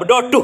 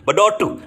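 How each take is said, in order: First: The middle consonant is a D sound. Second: The middle consonant is a clear T sound. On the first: The speaker is from the Payakumbuh or Lima Puluh Kota area. "itu sama dengan delta D" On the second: The speaker is a Minang speaker from elsewhere. "T-nya jelas"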